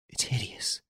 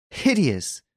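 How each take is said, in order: First: Hideous barely voiced, much softer, breathless; horrified whisper. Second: Hideous cried out higher, full voice; horrified cry. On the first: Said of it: "cried Hortense, pale as death". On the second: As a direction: burst out hideous in horror. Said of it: "cried Hortense". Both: A narrator's reading.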